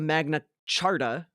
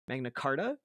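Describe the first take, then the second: First: The second word starts with a 'ch' sound. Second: The second word starts with a 'k' sound. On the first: The speaker calls it wrong. "He says Charta here" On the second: The speaker calls it right. "I'm going to call it the Magna Carta"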